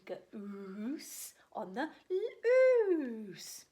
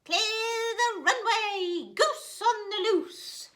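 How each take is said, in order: First: Goose on the loose drawn out very slow, breathy and hushed; slow whisper. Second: High, loud and slow shout. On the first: Reading the title to children, in a drawn-out whisper. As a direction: stretch each word in a secret hush. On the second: Gooseberry racing along the bank, slow high shout. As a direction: bellow it like a pilot on takeoff. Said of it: "he shouted". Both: Acted.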